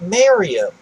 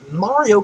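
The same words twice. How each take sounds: First: The first vowel sounds like 'ay' in mayor. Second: The first vowel sounds like 'ah'. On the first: The speaker calls it wrong. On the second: The speaker calls it right.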